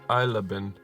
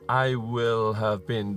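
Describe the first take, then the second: First: I will is contracted to I'll. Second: I will is said in full, uncontracted. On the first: The speaker calls it right. "At least that's how I said" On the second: The speaker calls it wrong. "so it's not I will have been"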